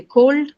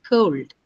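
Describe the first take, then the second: First: Cold with a pure o, stressed; local cold. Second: Cold with a gliding oh-oo; diphthong cold. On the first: Teacher showing how students say cold. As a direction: say cold flat and firm. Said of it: "You say cold". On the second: Teacher modelling the English cold. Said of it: "The O is a diphthong sound there". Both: Shown as a demonstration.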